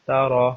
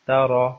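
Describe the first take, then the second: Both takes have the same delivery.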